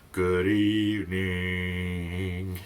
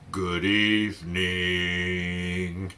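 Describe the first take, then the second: First: It is said in a low, grumpy voice. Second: The same.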